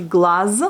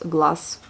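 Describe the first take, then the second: First: "glace" ending in a slow, voiced z; as written, with Z. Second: "glace" ending in a voiceless s; as pronounced, with S. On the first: Teacher showing the spelling, "glace" ending in voiced z. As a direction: say "glace" as glaz, buzzing the final z. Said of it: "ça s'écrit". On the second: Teacher showing the real pronunciation, "glace" ending in s. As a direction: say "glace" slowly with a clean final s. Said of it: "ça se prononce". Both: Shown as a demonstration.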